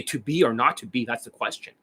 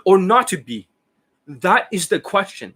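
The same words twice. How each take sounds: First: Said in the usual way. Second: Overacting. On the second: Shown as a demonstration. Coach showing students bad acting, overacted. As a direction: declaim it with exaggerated theatrical weight, pitched high. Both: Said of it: "the overact".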